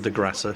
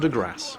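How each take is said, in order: First: The final E of Grasse is pronounced. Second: The final E of Grasse is silent. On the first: The speaker calls it wrong. "It's not the De Grasse, you don't pronounce the E" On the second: The speaker calls it right. "but the De Grasse"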